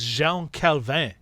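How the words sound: The name is said with French pronunciation. The speaker calls it right. "He was French"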